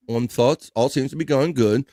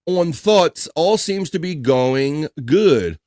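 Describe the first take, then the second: First: Said in the usual way. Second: "On thoughts" rising, then "all seems to be going good" stretched very slowly; slow, puzzled reading of the chat message; slow drawn-out read. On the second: Shown as a demonstration.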